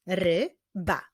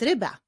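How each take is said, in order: First: "Ryba" as Ry, pause, ba; syllable by syllable. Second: Said in the usual way. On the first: Shown as a demonstration. Teacher showing pupils the syllables, "Ryba" split in two. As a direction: clap out "Ryba" in two beats. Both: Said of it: "Wyklaszczmy sylaby w tych wyrazach".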